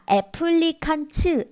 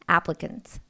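First: The middle syllable has a full vowel. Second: The middle syllable is reduced to a schwa. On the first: "applicants 나오지 않고 어떻게 나왔죠? / 칸으로 안 나오고" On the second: "근. 요거 슈아 발음이에요"

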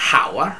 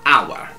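First: The h sound at the start is heard. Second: The h sound at the start is silent. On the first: The speaker calls it wrong. "non si pronuncia hour" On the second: The speaker calls it right. "ma hour. L'H non si sente"

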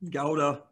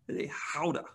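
First: Gouda is said the ordinary American way. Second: Gouda is said the European way.

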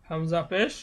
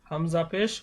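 Both takes have the same delivery.

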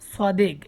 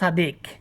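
First: The first s sound is a heavy emphatic s. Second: The first s sound is a plain s. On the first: This is the correct pronunciation. The speaker calls it right. "এটা হচ্ছে সোয়াদ" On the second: This is how non-native speakers say it. The speaker calls it wrong. "তারা উচ্চারণ করে সাদিক"

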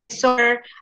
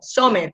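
First: The R is exaggerated, English-style. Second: The R is weak, with a Spanish accent. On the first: The speaker calls it right. "exagera la R" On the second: The speaker calls it wrong. "pero tú dijiste como summer, o sea, así"

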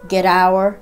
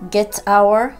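First: The t is a d-like flap linking the words. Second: The t is a clear t, words kept apart. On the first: "非常にD に近い音になって" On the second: "get our ではなく"

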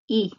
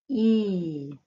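First: The vowel is clipped short. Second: The vowel is held long. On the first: "Kort vokal" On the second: "Lång vokal"

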